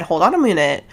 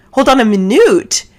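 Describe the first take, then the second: First: Said in the usual way. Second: Louder, higher retold double take; punched-up, higher-pitched mock shock; incredulous interruption. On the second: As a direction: halt everything with a loud, disbelieving repeat.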